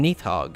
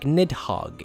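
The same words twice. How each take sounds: First: The middle consonant is a th sound. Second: The middle consonant is a d sound. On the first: "pronounced as th, like in Nidhogg in the newest God of War game" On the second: "not like Nidhogg in Final Fantasy fourteen"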